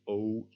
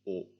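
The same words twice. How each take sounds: First: The vowel is long and tense. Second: The vowel is short and lax. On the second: "lop, which is pronounced differently"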